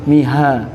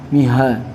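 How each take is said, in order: No difference in how they are said.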